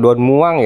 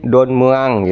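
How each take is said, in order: First: Muang is said with an oo vowel. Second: Muang is said with an uh vowel. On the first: The speaker calls it wrong. "bukan Don Muang ya ... bukan vokal U" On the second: The speaker calls it right. "tapi Don Muang gitu ... tapi justru E seperti kata Bekasi"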